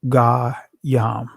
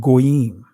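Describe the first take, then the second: First: The first vowel sounds like 'a'. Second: The first vowel sounds like 'o'. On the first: This is the ancient form of the word. "In the ancient Hebrew pronunciation of this word" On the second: This is the modern Israeli form of the word. "the Israeli pronunciation of it is"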